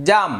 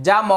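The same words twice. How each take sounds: First: জাম as one syllable, ending on m; closed final consonant. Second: জাম said in two syllables as ja-mo; open final vowel. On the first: Teacher showing the correct Bangla reading, final m closed. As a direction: close জাম on the m without a vowel. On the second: Teacher spelling a Bangla example, final vowel sounded. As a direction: let জাম end on an open o. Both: Shown as a demonstration. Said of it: "উচ্চারণ হবে".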